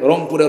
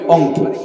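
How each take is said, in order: First: It is said in standard Bengali with r. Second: It is said Rangpur-style without r.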